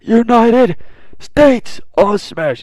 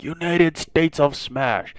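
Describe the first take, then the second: First: Much higher and louder, slow and stretched; hammed-up hero battle cry; all-out attack shout. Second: Higher, slow, held-back attack name; calling a move that fails; understated hero attack call; first attack call. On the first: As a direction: scream the move past his limit. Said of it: "He's like". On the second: Retold or imitated. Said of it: "And he's like".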